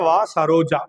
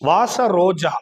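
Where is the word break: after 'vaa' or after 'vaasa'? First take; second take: after vaa; after vaasa. First: The break comes after 'vaa'. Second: The break comes after 'vaasa'. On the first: Come, Saroja. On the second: A fragrant rose.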